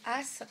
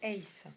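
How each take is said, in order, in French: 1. Le mot se prononce comme le 'as' français. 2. Le mot se prononce comme le 'ace' anglais. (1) "Quand tu dis as" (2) "en fait, c'est ace. Hein, c'est un mot anglais"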